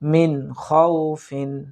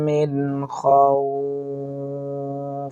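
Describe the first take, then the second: First: The word ends with a full '-in' sound. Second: The word ends abruptly without the '-in' sound. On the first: The reading continues without a stop. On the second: The reader stops at this word.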